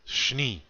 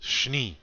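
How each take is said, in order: First: The sh runs straight into the n. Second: The sh runs straight into the n.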